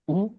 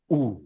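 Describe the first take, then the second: First: उ said short; one brief beat of oo on उ; quick, short उ; short vowel. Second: उ held long; sustained, drawn-out उ; long vowel. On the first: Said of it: "एक मात्रा में बोला जाएगा". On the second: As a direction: stretch उ into a long oo. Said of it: "ज्यादा समय के लिए बोला जाएगा". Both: Shown as a demonstration.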